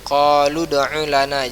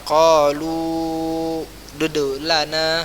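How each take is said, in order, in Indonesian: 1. Qalu langsung menyambung ke kata berikutnya. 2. Setelah qalu ditambahkan suku kata berulang. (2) "jangan antum baca"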